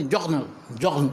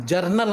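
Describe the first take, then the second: First: جگنل with the r turned into throaty gh; French-style General, جگنل. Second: Said in the usual way. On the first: Shown as a demonstration. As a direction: demonstrate جگنل, جگن with a uvular French r. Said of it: "غین کی طرح کو نکالیں گے". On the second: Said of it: "ہم کہتے ہیں English میں".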